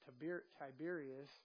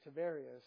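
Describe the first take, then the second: First: The name is said the English way, ending in s. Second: The name is said the Hebrew way, without final s. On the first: "in English, the words are pronounced totally different" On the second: "the way they pronounce Tiberius in Hebrew is Tiberia"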